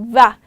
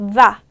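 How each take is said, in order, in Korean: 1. 처음은 떨리는 v 소리로 시작해요. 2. 처음은 떨리는 v 소리로 시작해요.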